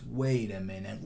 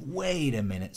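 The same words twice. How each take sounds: First: Said in the usual way. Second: "wait" lifted higher as the accent; accented second wait a minute. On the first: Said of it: "So it's". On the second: Shown as a demonstration. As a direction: hit "wait a minute" as the turn lands. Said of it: "that's a really nice accent".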